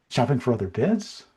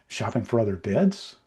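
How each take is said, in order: No difference in how they are said.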